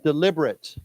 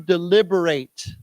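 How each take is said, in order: First: The last syllable has a reduced vowel. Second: The last syllable has a long A vowel. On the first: It is an adjective meaning on purpose. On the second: It is a verb meaning to discuss.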